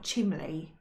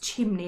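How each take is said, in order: First: The middle consonant is an L sound. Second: The middle consonant is an N sound. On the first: The speaker calls it wrong. "and not chimley" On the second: The speaker calls it right. "chimney was pronounced chimney"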